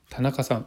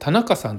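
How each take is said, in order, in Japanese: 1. この名前は標準語のアクセントです。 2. この名前は関西式のアクセントです。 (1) "例えば田中さんっているじゃないですか。" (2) "関西の方って田中さんって言うんですよね。"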